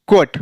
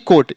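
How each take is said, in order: First: It begins with a kw sound. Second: It begins with a plain k sound. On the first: The speaker calls it right. "उसका उच्चारण क्या होगा? क्व।" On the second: The speaker calls it wrong. "यह कोट पढ़ेंगे तो गलत हो जाएगा।"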